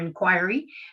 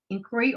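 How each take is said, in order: First: Inquiry is said in the international-school pronunciation. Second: Inquiry is said in the speaker's usual pronunciation. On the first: The speaker calls it right. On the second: The speaker calls it wrong.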